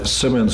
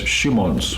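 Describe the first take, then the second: First: It is said with English sounds, starting with s. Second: It is said with Japanese sounds, starting with sh. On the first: "my Simmons" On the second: "The Japanese pronounce my Simmons as Shimons"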